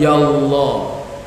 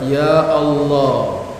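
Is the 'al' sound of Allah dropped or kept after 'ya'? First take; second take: dropped; kept. First: The 'al' sound of Allah is dropped. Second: The 'al' sound of Allah is kept. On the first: The speaker calls it wrong. "bukan ya Allah" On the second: The speaker calls it right. "tapi alif lamnya harus ada"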